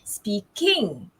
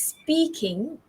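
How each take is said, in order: First: The stress is on the second syllable. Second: The stress is on the first syllable. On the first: The speaker calls it wrong. "not speaking" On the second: The speaker calls it right. "So you stress on the first syllable"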